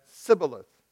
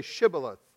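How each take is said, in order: First: "Sibboleth" begun with a plain s. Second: "Shibboleth" begun with a clear sh; sh sound. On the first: Ephraimite failing the test, "Sibboleth" with an s. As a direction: say "Sibboleth" with s where sh belongs. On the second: Men of Gilead testing a fugitive, "Shibboleth" with a clear sh. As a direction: say "Shibboleth" with a hushing first sound. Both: A narrator's reading. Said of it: "for he could not pronounce it correctly".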